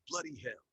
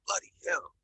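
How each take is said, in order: First: Sharp angry yell; yelled in anger. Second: Breathy angry curse, louder. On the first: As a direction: curse it out furious. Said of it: "Yelled in anger". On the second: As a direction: spit it out in frustration. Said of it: "said in an angry voice". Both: A narrator's reading.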